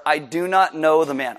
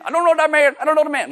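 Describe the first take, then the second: First: Said in the usual way. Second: Loud, very high-pitched hillbilly; hillbilly accent. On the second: Acted. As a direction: blurt the denial in a comic hillbilly voice. Hillbilly voice repeated for comedy.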